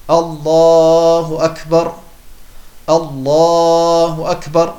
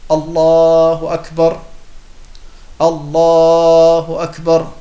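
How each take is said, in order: First: A pause separates the two phrases. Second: The same.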